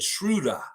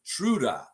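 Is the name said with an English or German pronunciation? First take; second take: German; German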